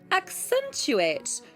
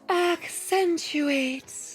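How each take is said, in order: First: The word is said in a tighter, more pressed voice. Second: The word is said in an airy, breathy voice. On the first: "That might be a little more tight" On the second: "You can perhaps hear how breathy is in a complete voice"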